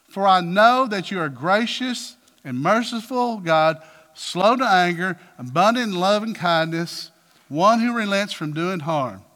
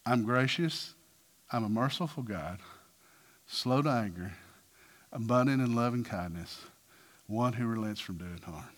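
First: Aggrieved and deliberate; upset complaint. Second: Low, soft, unhurried declaration; hushed, solemn tenderness; God speaking. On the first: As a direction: throw God's virtues back at him, stressing each one. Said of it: "Well, that's, he's upset". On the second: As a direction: speak gently and low, pausing after each attribute. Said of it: "this is what God says". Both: Acted.

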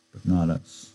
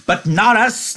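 First: Said in the usual way. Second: Very high, loud, joyful; happy cry. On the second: A narrator's reading. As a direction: crow it out with delight. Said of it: "Lenny cried happily".

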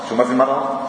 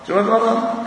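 First: Said in the usual way. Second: "شو ما في مرض؟" thrown up high, incredulous and mocking; mock disbelief. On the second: Shown as a demonstration. Mocking the debater who denies illness, pitched high in disbelief. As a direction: echo the question way up in mock astonishment.

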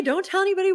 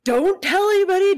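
First: Panicked repeat. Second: High, loud, frantic warning; panicked plea. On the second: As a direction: beg them to keep it secret, loudly. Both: Retold or imitated. Chris panicking, hiding the incident.

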